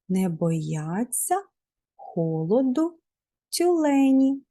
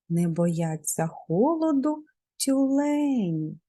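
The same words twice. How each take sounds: First: The phrase is spoken at a normal pace. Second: The phrase is spoken at a quicker pace.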